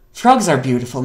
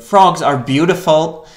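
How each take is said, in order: First: Said in the usual way. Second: Slow, loud insistence on Frogs; emphatic. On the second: Real, not acted. Streamer defending frogs to the game, slow and loud. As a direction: lean hard into Frogs and stretch it out. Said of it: "repeated as correction".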